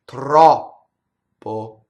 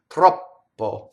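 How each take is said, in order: First: The vowel is full length before a stopped P. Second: The vowel is cut short before the P. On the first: The speaker calls it right. "So it's the space that gives us the double consonant, the stoppage" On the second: The speaker calls it wrong. "it sounds wrong because the vowel is not long enough"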